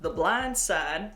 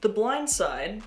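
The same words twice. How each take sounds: First: It is said in a Southern drawl. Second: It is said in a neutral accent.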